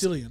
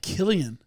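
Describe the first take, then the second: First: The name begins with an S sound. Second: The name begins with a K sound. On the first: The speaker calls it wrong. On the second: The speaker calls it right.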